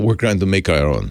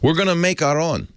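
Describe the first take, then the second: First: It is said in the speaker's ordinary accent. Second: It is said in a put-on Russian accent.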